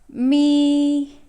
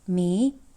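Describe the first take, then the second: First: The pitch stays high and level. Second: The pitch rises from mid to high. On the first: "the first tone goes me" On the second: "it goes up"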